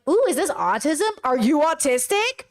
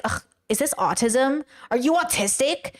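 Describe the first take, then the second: First: Delighted "ooh", pitch swooping up on the question; not in a bad way. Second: Disgusted "ugh", then a dismissive question; mock ableist disdain; disparaging. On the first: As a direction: ask it with keen, friendly curiosity. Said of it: "I'm not saying it that way". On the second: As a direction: ask it as a put-down. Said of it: "they are saying it in a bad way".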